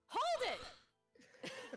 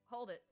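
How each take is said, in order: First: It is shouted loudly. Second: It is said at a normal volume. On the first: The speaker calls it right. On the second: The speaker calls it wrong.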